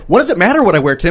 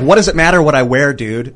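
First: It is said at normal speed. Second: It is said more slowly.

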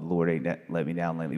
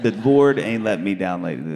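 First: The title is said at normal speed. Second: The title is said slowly.

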